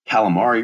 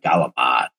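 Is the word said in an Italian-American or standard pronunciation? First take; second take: standard; Italian-American. First: It is said in a standard American pronunciation. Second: It is said in a South Philly Italian pronunciation.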